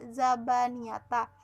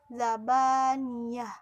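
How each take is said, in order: First: The word ends with a full ta syllable. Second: The word ends with a soft h sound. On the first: The speaker calls it wrong. "tidak zabaniyata" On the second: The speaker calls it right. "tanya dibaca zabaniyah"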